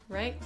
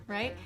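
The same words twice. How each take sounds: Both takes have the same delivery.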